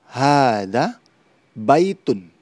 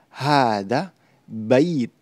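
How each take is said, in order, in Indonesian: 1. Kata terakhir berakhir dengan akhiran -un penuh. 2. Kata terakhir berakhir dengan konsonan saja.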